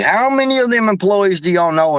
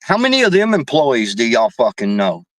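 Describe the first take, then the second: First: Many pushed higher, insistent repeat; stress on many. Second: Said in the usual way. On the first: Real, not acted. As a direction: ask it again, higher, hitting many. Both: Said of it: "I mean, seriously".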